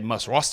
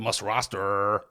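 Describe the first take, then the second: First: The vowel in 'roster' is short and clipped. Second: The vowel in 'roster' is long and stretched. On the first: The speaker calls it right. "I say must roster" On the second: The speaker calls it wrong. "we don't need to extend it out to last five weeks, that word"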